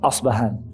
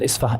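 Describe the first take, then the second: First: The name is said with a b sound. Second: The name is said with an f sound. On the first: This is the Arabic form of the name. "the Arabic pronunciation of the city is Asbahan" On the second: This is the city's name today. "it's called Isfahan"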